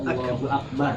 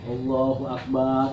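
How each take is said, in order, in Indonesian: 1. Vokal setelah b dibaca pendek. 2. Vokal setelah b dibaca panjang. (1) "Allah maha besar" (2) "Ba-nya pakai alif gitu"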